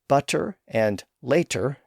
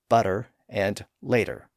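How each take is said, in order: First: The middle consonants are clear T sounds. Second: The middle consonants sound like D sounds.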